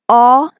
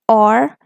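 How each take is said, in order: First: British accent, with no R sound at the end. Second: American accent, with an R sound at the end. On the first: "If you are using the British version" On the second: "According to American English"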